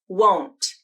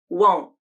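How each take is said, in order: First: The final T is clearly released. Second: The final T is cut off by a glottal stop. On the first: "with a true T" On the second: "and then a stop T"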